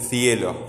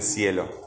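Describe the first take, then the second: First: It is said with a Spain accent. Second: It is said with a Latin American accent.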